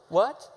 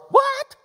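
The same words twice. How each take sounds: First: Said in the usual way. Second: High, loud, shocked WHAT; all-caps yell. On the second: Shown as a demonstration. Preacher contrasts two typed whats, yelling. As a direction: burst out like an all-caps text. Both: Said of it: "There's a difference".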